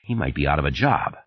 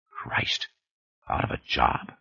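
First: Said in the usual way. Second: Breathy whispered inner thought, hushed. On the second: Acted. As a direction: whisper it to yourself in dismay. Sanders's panicked inner thought.

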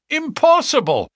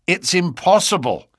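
First: Very high, loud exclamation; louder, much higher protest; outraged interruption. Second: High, louder protest; startled but contained refusal; incredulous objection. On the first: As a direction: cut in with a high burst of disbelief. Inspector cuts in on Holmes. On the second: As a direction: object sharply, pitch raised. Inspector objects to draining moat. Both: A narrator's reading.

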